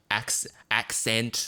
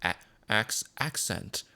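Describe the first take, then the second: First: "accent" in Australian, back of the mouth; Aussie "accent", vowels held back in the mouth. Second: "accent" in American, front of the mouth; imitated American "accent", vowels pushed forward. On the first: Streamer contrasting Aussie with American speech, Australian back-of-mouth accent. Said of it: "It's all in the back of the mouth". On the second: Streamer contrasting American with Aussie speech, American front-of-mouth accent. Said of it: "in the American accent, it's all kind of in the front". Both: Shown as a demonstration.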